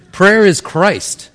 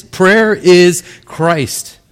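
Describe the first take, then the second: First: "Prayer is Christ" slow and raised in pitch; emphatic statement. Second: "Prayer... is... Christ", very drawn out, high; word-by-word emphasis. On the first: Preacher sums up for congregation, "Prayer is Christ" slow and emphatic. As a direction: say "Prayer is Christ" slowly and firmly, higher. Preacher drives home his main point. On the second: Preacher drives point home, "Prayer is Christ" extremely slow, word by word. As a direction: stretch each word of "Prayer is Christ" right out. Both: Real, not acted.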